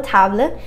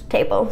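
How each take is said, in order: First: "table" the French way, like TAH-bluh; French-accented "table" with an open "ah". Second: Said in the usual way. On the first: Shown as a demonstration. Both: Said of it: "just say it with a French accent".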